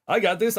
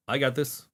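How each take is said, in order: First: Higher, louder hyped self-encouragement; self-pep talk. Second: Said in the usual way. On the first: Real, not acted. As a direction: pump yourself up.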